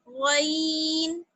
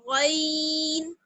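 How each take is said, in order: The two takes are said the same way.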